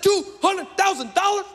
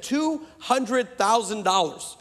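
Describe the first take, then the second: First: High-pitched mock disbelief; incredulous echo. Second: Slow, spaced-out figure; slow admission. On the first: Preacher hearing what the doctorate cost, high incredulous echo. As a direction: squawk the sum back, pitch way up. Preacher repeats price in shock. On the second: Retold or imitated. Doctor telling the preacher what he paid, slow retold admission. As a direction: state the sum word by word. Scholar states the tuition price.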